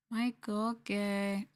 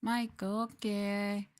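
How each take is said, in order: Both takes have the same delivery.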